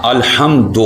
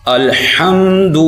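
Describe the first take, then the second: First: الحمد said the mistaken way; wrong reading of الحمد; wrong pronunciation. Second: الحمد slowly, lips rounded; correct pronunciation. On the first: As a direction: show the common mistake in الحمد. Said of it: "یہ غلط ہے۔". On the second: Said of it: "اس کو ہم نے کیسے پڑھنا ہے؟". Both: Shown as a demonstration.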